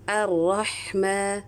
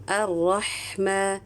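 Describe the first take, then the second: No difference in how they are said.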